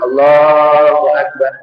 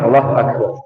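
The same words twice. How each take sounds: First: It is said at a normal pace. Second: It is said very fast.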